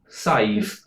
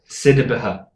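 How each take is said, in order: First: The name is said as one short syllable. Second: The name is said with several syllables, as spelled. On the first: The speaker knows the Irish name. The speaker calls it right. "Pronounce the S, ignore the A D H A B H, and then pronounce that as an I V" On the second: The speaker is guessing from the spelling. The speaker calls it wrong. "if I pretended I've never seen an Irish name before, I would pronounce that Sidibaha"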